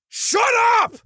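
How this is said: It is said in an aggressive way.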